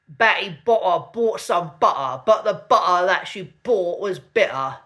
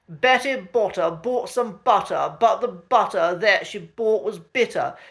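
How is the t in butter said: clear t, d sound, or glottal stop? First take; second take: glottal stop; clear t. First: The t sounds are replaced by glottal stops. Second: The t sounds are pronounced as clear t sounds. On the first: The speaker calls it wrong. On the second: The speaker calls it right.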